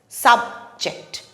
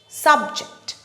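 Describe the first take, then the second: First: The stress is on the first syllable. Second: The same.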